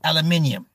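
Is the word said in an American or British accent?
British. It is said in a British accent.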